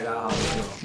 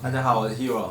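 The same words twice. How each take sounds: First: It is said quietly. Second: It is said loudly.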